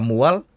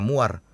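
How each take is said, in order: First: The word ends with an L sound. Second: The word ends with an R sound. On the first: Some speakers in Seram say it this way. "Ada yang L" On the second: Other speakers in Seram say it this way. "ada yang R"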